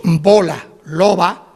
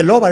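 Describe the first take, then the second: First: Said in the usual way. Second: Loba with a hard stopped B for emphasis; stressed stop B. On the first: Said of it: "bien dicho, normalmente dicho". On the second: Shown as a demonstration. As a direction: close the lips and pop the B of loba. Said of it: "si en vez de loba decimos loba".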